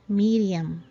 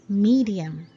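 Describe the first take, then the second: No difference in how they are said.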